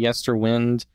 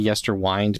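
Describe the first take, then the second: First: The ending 'wind' rhymes with 'pinned'. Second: The ending 'wind' rhymes with 'find'. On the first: "I want to say Yesterwind" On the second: "it's like winding a clock"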